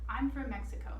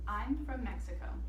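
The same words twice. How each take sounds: First: It is read at a faster pace. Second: It is read at a slower pace.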